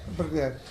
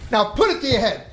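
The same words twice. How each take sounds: First: Lower, softer reluctant echo; obey quietly as the cowed kid; acted-out subdued reply; meek compliance. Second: Firm commanding father; acted-out forceful instruction; mock stern order. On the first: Son meekly obeys, acted. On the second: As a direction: order the kid without room for argument.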